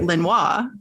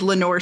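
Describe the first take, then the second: First: The name is said with a French pronunciation. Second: The name is said with an English pronunciation. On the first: "if you spoke French or took any French, you would say" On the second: "It is Lenore City"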